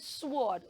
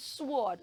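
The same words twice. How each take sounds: First: The W sound is pronounced after the S. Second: The W sound is pronounced after the S.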